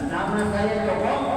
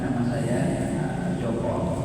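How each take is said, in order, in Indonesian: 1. Terdengar bersemangat dan yakin, dengan nada yang bervariasi. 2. Terdengar lemah dan terputus-putus, dengan bunyi pengisi. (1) "intonasi kalimatnya jelas, suaranya berirama, ... tatapan wajahnya yakin" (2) "Jangan sekali-kali ngomong gini"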